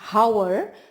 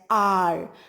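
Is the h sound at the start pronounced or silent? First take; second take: pronounced; silent. First: The word begins with an audible h sound. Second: The word begins with a vowel, h silent. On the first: The speaker calls it wrong. "We don't say it as hour" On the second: The speaker calls it right. "we pronounce it as R"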